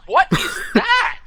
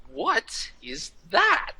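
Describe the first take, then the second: First: High, slow, scandalized question; drawn-out high disbelief, hammed up; mock shock. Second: Slow, hushed, higher-pitched disbelief; slow, incredulous question. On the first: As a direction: imitate an appalled onlooker, stretching each word. Retold actress reacts in shock. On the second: Retold or imitated. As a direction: draw out each word in soft disbelief. Retold actor baffled by picture.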